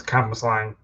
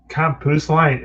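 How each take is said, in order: First: "campus line" said as "cam-buss-LANG", run together as one name; correct pronunciation. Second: "campus line" said as "CAM-pus line", ending in a plain n; imitated mispronunciation. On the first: Shown as a demonstration. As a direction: model "campus line" as Cambuslang, ending in ng. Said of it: "it's not that, it's campus line". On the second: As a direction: mimic the wrong "campus line", three separate beats, pitched up. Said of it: "I don't know how he says".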